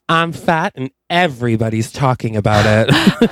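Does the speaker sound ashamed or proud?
proud. It sounds proud and unbothered.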